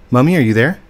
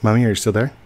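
First: Louder call, stress on are. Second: Said in the usual way. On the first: Real, not acted. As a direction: call out to be heard. Calling mom again louder.

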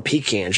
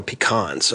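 First: "pecans" said pee-KANS, flat short a; wrong pecans. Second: "pecans" said pi-KAHNS, open ah vowel; Southern pecans. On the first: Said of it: "You call 'em pecans". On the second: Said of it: "you don't call 'em pecans". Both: Shown as a demonstration.

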